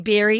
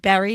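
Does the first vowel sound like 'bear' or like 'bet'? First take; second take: bear; bet. First: The first vowel sounds like the vowel in 'bear'. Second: The first vowel sounds like the vowel in 'bet'. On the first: The speaker calls it wrong. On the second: The speaker calls it right.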